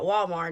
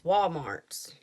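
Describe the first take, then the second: First: The name ends without an added s sound. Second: The name ends with an added s sound. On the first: This is the usual form of the name. "it's not Walmart" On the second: This is how people in the speaker's region say it. "It's Walmart's"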